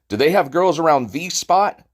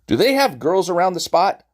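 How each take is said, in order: First: The word 'the' is stressed. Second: The word 'the' is not stressed.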